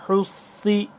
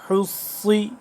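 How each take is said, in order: Both takes have the same delivery.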